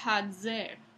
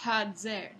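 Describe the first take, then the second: First: The middle consonant is a voiced dz affricate. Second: The same.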